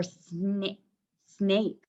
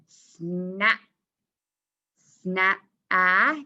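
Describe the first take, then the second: First: "snap" mispronounced as "snay, snape"; long A. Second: "snap" cut to "sna", then a held rising "ah"; short A. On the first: Teacher trying the wrong vowel, "snap" with long A. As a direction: say "snap" with the A saying its name. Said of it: "would that be a long A". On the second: Teacher testing the vowel, "snap" with short A. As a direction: stretch the cat vowel out of "snap". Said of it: "Is it saying ah or A". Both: Shown as a demonstration.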